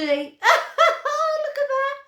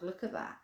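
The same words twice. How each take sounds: First: Much higher, slow and giggly; laughing delight. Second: Said in the usual way. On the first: Real, not acted. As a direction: laugh it out while showing the dog. Laughing at heart doggy.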